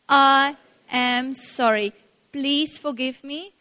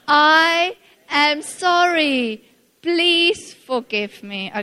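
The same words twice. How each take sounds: First: It is said calmly, without much feeling. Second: It is said with more passion and feeling.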